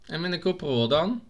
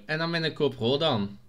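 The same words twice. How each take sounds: First: "GoPro dan" rising steeply into a question; vragende toon. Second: Said in the usual way. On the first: Pretend. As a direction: ask it, lifting the end on "dan". Repeats it as a question. (stijgende vraagtoon op "dan")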